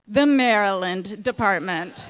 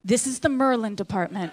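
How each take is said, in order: First: "Maryland" said slowly and clearly as MAIR-uh-land, every syllable there; reading the sign. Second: Put-on "Merlin" for Maryland, squeezed to MER-lin in a Baltimore accent; local Baltimore pronunciation. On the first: Retold or imitated. Reading the sign above the room, slow careful "Maryland". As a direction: read "The Maryland Department." slow and careful, standard Maryland. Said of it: "the sign says". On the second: Librarian pointing at the sign, Baltimore "Merlin" for Maryland. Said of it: "she says".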